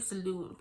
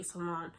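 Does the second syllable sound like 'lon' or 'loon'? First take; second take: loon; lon. First: The second syllable has a long 'oo' vowel. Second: The second syllable has a short 'o' vowel. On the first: This is the speaker's own way of saying it. "I say saloon" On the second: This is how other people say it. "People say salon"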